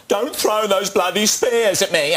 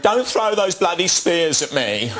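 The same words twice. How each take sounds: First: High mock Michael Caine line from Zulu; a film officer impression, pitched way up; hammed-up Michael Caine in Zulu. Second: High, slow, laughing Michael Caine impression; a mock Michael Caine line from Zulu, through laughter; imitating a film officer while laughing. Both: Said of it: "he's doing Michael Caine in Zulu".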